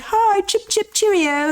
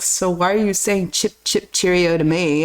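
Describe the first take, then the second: First: High, chirpy mock-British hello; retold jokey cheerio, pitched up; playful British-style greeting. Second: Lightly voiced friend, low and puzzled; a hint of the questioning Brit, lower; retold British friend. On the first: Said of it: "I'm, like, being like". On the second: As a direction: quote the British friend, pitched down. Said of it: "he's British. And he's like".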